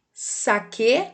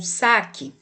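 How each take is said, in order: First: Slow "saque" said sa-KÊ, as in saquê; stress on last syllable. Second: Slow "saque" said SA-ki; stress on first syllable. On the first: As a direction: put the weight on final "que" in "saque". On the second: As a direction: put the weight on SA in "saque". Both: Shown as a demonstration. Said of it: "leia os pares de palavras".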